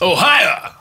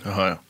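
First: It is said in a ramped-up announcer voice. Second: It is said in a plain, normal voice.

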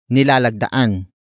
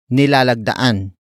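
First: The word begins with the syllable ni. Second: The same.

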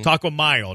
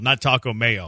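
First: Mayo is said like 'my-oh', Spanish style. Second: Mayo is said like 'may-oh', as in mayonnaise. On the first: The speaker calls it right. "It's kind of like Cinco de Mayo" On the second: The speaker calls it wrong.

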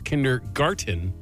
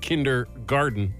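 First: The last syllable begins with a t sound. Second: The last syllable begins with a d sound. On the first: The speaker calls it right. "I did not know it was kindergarten" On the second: The speaker calls it wrong. "my whole life I've said kindergarten"

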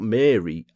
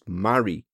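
First: The name is said as Mary. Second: The name is said as Marie. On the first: The speaker calls it wrong. "not Mary, as I was pronouncing it" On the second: The speaker calls it right. "is actually pronounced Marie"

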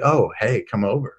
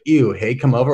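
First: It is said with pleased interest. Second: It is said with disgust.

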